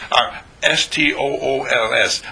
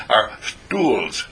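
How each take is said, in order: First: Our S T O O L S with each letter of "S T O O L S" said separately; spelled out. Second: Said in the usual way. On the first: Shown as a demonstration. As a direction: spell "S T O O L S" letter by letter, then the word. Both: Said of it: "I can't even pronounce it".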